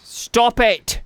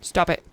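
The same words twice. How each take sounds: First: Louder, higher British "Stop it!"; hammed-up British telling-off, louder; mock British shout. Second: Said in the usual way. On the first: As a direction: scold the game like a cross Brit. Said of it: "how often I do a British accent".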